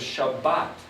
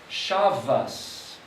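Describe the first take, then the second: First: The word ends with a T sound. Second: The word ends with an S sound. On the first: "some of them pronounce it as a T" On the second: "some of them pronounce it as an S"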